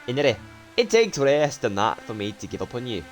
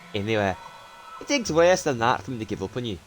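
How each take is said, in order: First: The words run on with no clear pause. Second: There is a clear pause after 'anyway'.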